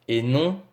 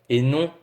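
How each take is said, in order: No difference in how they are said.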